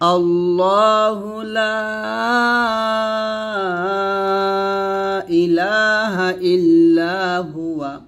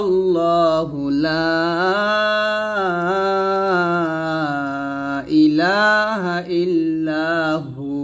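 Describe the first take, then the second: First: The phrase ends with the full syllables huwa. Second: The phrase ends with a short clipped hu. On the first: The reciter continues without stopping. "আপনারা বলবেন অবশ্যই" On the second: The reciter stops at this point. "যদি ওয়াকফ ধরি তাহলে বলতে হবে"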